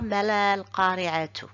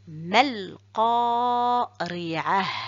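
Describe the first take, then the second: First: The last word ends in a t plus u. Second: The last word ends in a soft h sound. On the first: The speaker calls it wrong. "Je dis pas mal qari'atu" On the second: The speaker calls it right. "je dis mal qari'ah"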